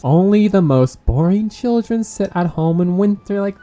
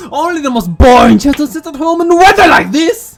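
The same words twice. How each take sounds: First: Said in the usual way. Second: Imitating the child, louder and higher; mock child voice. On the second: Player mocking a character's line, mock child voice. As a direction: repeat the line like a snotty kid. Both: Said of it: "I thought it was me talking".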